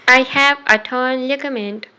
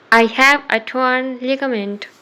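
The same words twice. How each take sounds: The two takes are said the same way.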